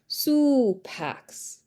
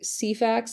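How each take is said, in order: First: The first vowel is rounded, like 'u'. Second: The first vowel is a plain unrounded sound. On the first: This is how the Romans would have said it. "That would be how it would be" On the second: This is the common modern way to say it. "You wouldn't be wrong saying Cefax. That's how a lot of people would say it"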